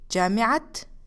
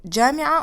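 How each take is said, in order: First: The word ends with an audible t sound. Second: The word ends in a vowel, no t. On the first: The word is joined to a following noun. "you pronounce it as ta" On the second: The word stands on its own. "we don't pronounce it as ta marbuta"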